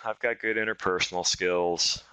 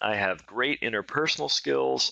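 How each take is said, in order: First: It sounds shy, quiet and unexcited. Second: It sounds lively, confident and excited.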